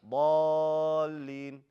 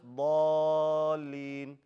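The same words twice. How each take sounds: First: The doubled L gets a strong push. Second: The doubled L gets no extra push. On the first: The speaker calls it right. "You put emphasis on that next letter" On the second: The speaker calls it wrong. "Not just ضالين"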